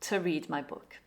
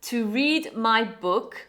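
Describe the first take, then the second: First: The word to has a weak schwa. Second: The word to has a full vowel.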